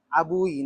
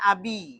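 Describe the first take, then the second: First: The word ends in a 'u' then 'i' vowel. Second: The word ends in a plain 'i' vowel. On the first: The speaker calls it wrong. "Ini salah kalau dibaca abui" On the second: The speaker calls it right. "berarti kasroh, berarti bacanya abi"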